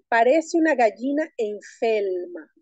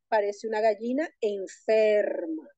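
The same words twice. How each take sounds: First: The r sounds are said as l sounds. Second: The r sounds are said as r sounds. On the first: "En la película dice así" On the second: "Cuando el habla culta diría"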